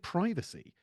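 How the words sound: The word is said in an American way. The speaker calls it wrong. "Why are you sounding like an American?"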